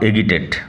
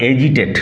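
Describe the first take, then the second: First: The middle consonant is a hard g sound. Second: The middle consonant is a soft j sound. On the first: The speaker calls it wrong. "Not এগিটেট" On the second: The speaker calls it right. "উচ্চারণ হয় এজিটেট"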